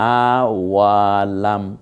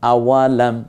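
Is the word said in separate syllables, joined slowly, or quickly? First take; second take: joined; quick. First: The syllables are joined together at moderate speed. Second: The whole word is said smoothly and quickly. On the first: "এবার মিলে পড়ি" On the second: "এবার একটু তাড়াতাড়ি পড়েন"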